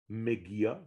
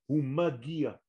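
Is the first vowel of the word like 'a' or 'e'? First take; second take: e; a. First: The first vowel sounds like 'e'. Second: The first vowel sounds like 'a'. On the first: The speaker calls it wrong. "ça ne veut rien dire Megia" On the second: The speaker calls it right. "il arrive"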